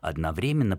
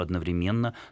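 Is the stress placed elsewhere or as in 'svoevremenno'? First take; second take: like svoevremenno; elsewhere. First: The stress falls as in 'svoevremenno'. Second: The stress falls on a different syllable. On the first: This is the older, more traditional norm. "старшая норма предполагает все-таки ударение одновременно" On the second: This is the newer, also acceptable variant. "одновременно тоже не является ошибкой ни в коем случае"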